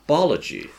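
The first vowel is flattened to a long 'ar'. "She said barlogy"

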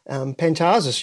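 The name is said with Australian pronunciation. "that's the Australian pronunciation"

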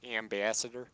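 It is said in a Michigan accent.

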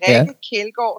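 The name is pronounced the Danish way. "säger man på danska"

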